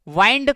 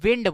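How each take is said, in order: First: The vowel is a long 'eye' sound. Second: The vowel is a short 'i' sound. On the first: This is the American way of saying it. "America में इसको वाइंड कहा जाता है" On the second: This is the British way of saying it. "England में इसको विंड बोलते हैं"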